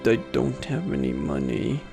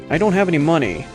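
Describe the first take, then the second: First: It is said very softly. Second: It is said more loudly.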